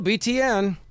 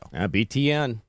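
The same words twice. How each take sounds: First: It is said with extra force and emphasis. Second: It is said plainly, without extra force.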